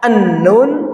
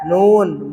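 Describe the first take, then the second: First: A vowel sound comes before the letter name. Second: The letter name is said plainly without a lead-in. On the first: The speaker calls it wrong. "Jangan istilah kita suka berubah menjadi iya" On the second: The speaker calls it right. "cukup aja kita bacanya ya"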